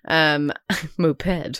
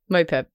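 First: The word is said oddly, as if split into two separate words. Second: The word is said smoothly, as one ordinary word. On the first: "I said that in a really weird way" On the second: "You didn't say it like that"

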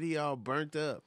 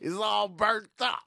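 First: It is said in the speaker's own normal voice. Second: It is said in an imitated, put-on voice. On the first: "I never said it in the voice" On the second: "In the voice"

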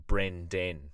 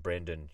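First: The second vowel is a full E sound. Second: The second vowel is a reduced schwa. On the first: The speaker calls it right. "it's an actual E for Brendan" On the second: The speaker calls it wrong. "we just put a schwa in when we're talking Brendan"

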